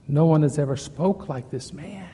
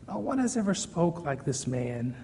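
First: Said in the usual way. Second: Soft, reverent echo of the line; hushed repeat. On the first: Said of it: "repeated softly". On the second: Shown as a demonstration. Preacher echoing the guards' awed words, softly. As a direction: let it sink in, quietly. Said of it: "hushed repeat of guards' words".

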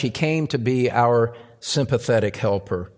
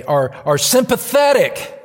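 First: Said in the usual way. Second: SYMPATHETIC punched much higher and louder; stress on SYMPATHETIC. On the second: Real, not acted. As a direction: lean hard on "sympathetic", pitch leaping up. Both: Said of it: "I emphasize the word today".

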